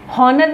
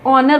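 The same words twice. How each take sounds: First: हॉनर with a voiced h at the start, marked as wrong; teacher showing the wrong way: हॉनर with a sounded h; wrong pronunciation. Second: ऑनर with a silent h, starting on the vowel ऑ; correct pronunciation. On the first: Teacher to students, showing the mistaken हॉनर with h. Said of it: "हॉनर नहीं बोलते हैं". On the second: Teacher to students, modelling the correct silent-h ऑनर. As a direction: say ऑनर cleanly with no h sound. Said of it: "ऑनर बोलते हैं". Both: Shown as a demonstration.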